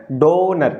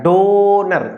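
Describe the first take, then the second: First: Said in the usual way. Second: donor with the O sound held and pushed; stress on the O. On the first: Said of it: "ओ पर जोर पड़ता है". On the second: Shown as a demonstration. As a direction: lean hard on the O in donor, DO-ner. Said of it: "donor में कौन सा word पे जोर आ रहा है".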